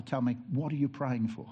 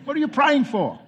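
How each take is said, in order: First: Said in the usual way. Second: "What are you praying for?" much louder and higher, stressing "praying"; mock outrage at the question; incredulous repeat. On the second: Pastor repeats the widow's question to the congregation in loud mock disbelief. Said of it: "you're not supposed to ask that question".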